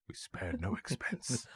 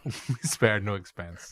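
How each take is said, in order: First: Put-on slow, soft, proud old showman; Attenborough impression. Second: Very slow grand title; title read slowly. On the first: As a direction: savour each word like a proud host. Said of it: "Dickie Attenborough keeps saying". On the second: Shown as a demonstration. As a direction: announce it like a film title, stretched. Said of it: "I wanna call it".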